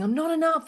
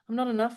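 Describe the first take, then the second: First: It sounds breathless, hurried and panicky. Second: It sounds calm, steady and grounded. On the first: The words are performed rather than felt. The speaker calls it wrong. "like that" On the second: The speaker is curious and ready to fix it. The speaker calls it right. "Your tonality comes from a grounded place"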